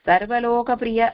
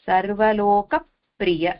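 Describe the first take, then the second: First: The words run together without a stop. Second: There is a brief stop before 'priya'. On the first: The speaker calls it wrong. "அப்படின்னு சொல்லாம" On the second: The speaker calls it right. "அங்க அந்த இப்ப நிறுத்துறோம்"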